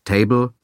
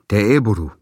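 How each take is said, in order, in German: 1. Es wird mit ganz normalen englischen Lauten gesprochen. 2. Es wird mit japanisch klingenden Silben und Vokalen gesprochen. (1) "Man sagt nicht Table" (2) "sondern Teeburu"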